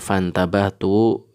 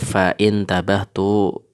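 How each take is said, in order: First: The middle glottal stop is dropped; sounds run together. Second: A glottal stop is pronounced in the middle. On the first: The speaker calls it right. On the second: The speaker calls it wrong.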